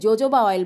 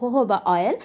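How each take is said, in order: First: The word begins with a J sound. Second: The word begins with an H sound. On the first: The speaker calls it wrong. "অনেকে আমাদের দেশে জোজোবা oil বলে থাকেন" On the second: The speaker calls it right. "Actually এটার উচ্চারণ হচ্ছে হোহোবা oil"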